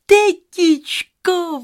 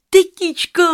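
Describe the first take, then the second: First: Much higher, slow, stretched-out call; long drawn call. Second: Much higher, loud call. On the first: Rozárka calls her aunt again, long stretched high call. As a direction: draw the name out long. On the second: Rozárka runs home calling her aunt, high loud call. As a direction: shout for your aunt running home. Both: Acted.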